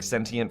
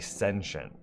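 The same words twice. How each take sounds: First: The middle has a clear T sound. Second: The middle sounds like sh, with no T. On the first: "it's definitely with a, a T" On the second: "Do you guys pronounce the T in that word or say sentient?"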